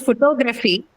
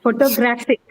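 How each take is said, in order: First: "photography" with the stress on TOG, the second syllable; pho-TOG-ra-phy, second beat strongest; contrasting word stress. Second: "Photographic" with the stress on GRAPH; pho-to-GRAPH-ic, third beat strongest; stress on third syllable. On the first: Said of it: "It is photography". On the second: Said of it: "It's on the third syllable". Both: Shown as a demonstration.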